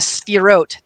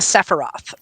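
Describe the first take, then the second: First: It is said with the Hebrew pronunciation. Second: It is said with the English game-name pronunciation. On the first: The speaker calls it right. "together they are the Sphirot" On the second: The speaker calls it wrong. "not the Sephiroth"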